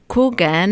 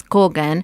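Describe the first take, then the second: First: "Coogan" with a long English oo, as in cool; "Coogan" said the English way, KOO-gan; English pronunciation. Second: "Kogan" with a short Spanish o, KO-gan; "Kogan" the Argentinian way, clipped open o; Spanish pronunciation. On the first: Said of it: "in English sounds". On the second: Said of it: "in Argentina it's Kogan". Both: Shown as a demonstration.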